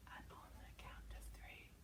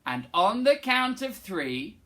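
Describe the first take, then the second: First: Slow soft whisper. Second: Said in the usual way. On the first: Shown as a demonstration. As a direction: breathe it in a whisper. Whispered echo.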